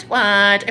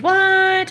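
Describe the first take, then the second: First: Said in the usual way. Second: Sharp high disbelieving what; shocked what. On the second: Retold or imitated. Friend shocked at the empty fridge, high incredulous.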